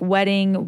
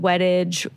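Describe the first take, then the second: First: The name ends with a 'ding' sound. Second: The name ends with a 'dage' sound. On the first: "People like do like wedding"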